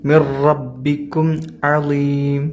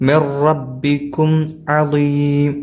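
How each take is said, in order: The two takes are said the same way.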